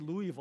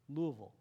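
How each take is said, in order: First: The word is said crisply, every syllable clear. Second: The word is said slowly, with slurred syllables. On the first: The speaker calls it wrong. "you don't say Louisville" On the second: The speaker calls it right. "You got to say it with a slow, lazy tongue"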